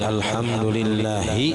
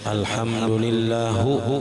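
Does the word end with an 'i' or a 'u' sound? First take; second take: i; u. First: The word ends with an 'i' vowel. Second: The word ends with a 'u' vowel. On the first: The speaker calls it right. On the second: The speaker calls it wrong.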